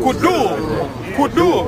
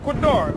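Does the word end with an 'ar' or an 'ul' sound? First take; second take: ul; ar. First: The word ends with an 'ul' sound. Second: The word ends with an 'ar' sound. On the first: The speaker calls it wrong. "she said with a U" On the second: The speaker calls it right. "when you pronounce it in the proper"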